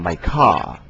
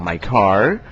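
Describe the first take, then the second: First: The final r sound is dropped. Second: The final r sound is clearly pronounced. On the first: "Mereka mengucapkannya my car" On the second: "Mereka tidak bilang my car"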